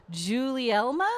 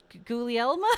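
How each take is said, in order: First: "Julielma" with a J sound, unsure and rising; wrong pronunciation. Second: "Gulielma" restarted with a hard G, goo-lee-EL-ma; "G-, Gulielma" begun again with a hard G sound; corrected pronunciation. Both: Real, not acted. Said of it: "I'm so bad with this".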